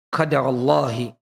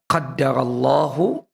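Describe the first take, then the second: First: The word ends with an 'i' vowel. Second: The word ends with an 'u' vowel. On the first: It is read as a verbal noun in a possessive phrase. "qaddarallahi itu pakai masdarnya" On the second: It is read as a past-tense verb. "Ini bisa dibaca qaddarallahu"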